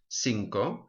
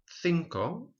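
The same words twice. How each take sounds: First: The first consonant is an 's' sound. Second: The first consonant is a 'th' sound. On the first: This is the pronunciation in southern Spain. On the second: This is the usual pronunciation in most of Spain.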